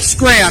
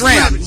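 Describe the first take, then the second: First: The name begins with an 'sk' sound. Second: The name begins with a 'sh' sound. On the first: The speaker calls it wrong. "not SCRAM" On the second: The speaker calls it right. "it's SHRAM"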